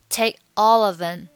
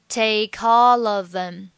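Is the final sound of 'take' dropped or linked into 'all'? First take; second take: dropped; linked. First: The end of take is dropped; only all of them links. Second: All four words run together, with take linked to all. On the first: "把take 末尾不发音，然后all of them 三个单词连读" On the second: "四个单词可以连读成take all of them"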